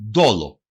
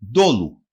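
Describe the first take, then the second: First: «ντόλο» as DO-lo, ending in o; usual pronunciation. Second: «Ντόλου» as DO-lu, ending in u; written form. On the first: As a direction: open the last vowel of «ντόλο» to o. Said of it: "Συνήθως προφέρεται". («ντόλο» με ο στο τέλος) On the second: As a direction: round the last vowel of «Ντόλου» to u. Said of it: "Συνήθως προφέρεται ντόλο". («Ντόλου» με ου στο τέλος) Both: Shown as a demonstration.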